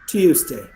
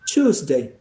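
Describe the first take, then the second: First: The word begins with a t sound. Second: The word begins with a ch sound. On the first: "the second choice is tu, tu, as in tune" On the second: "the very popular one is actually chi, chi, chi, cha"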